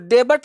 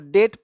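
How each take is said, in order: First: The b sound is pronounced before the t. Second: The b sound is silent before the t. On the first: The speaker calls it wrong. "इसको डेबट नहीं पढ़ना है" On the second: The speaker calls it right. "इसको डेट पढ़ना है"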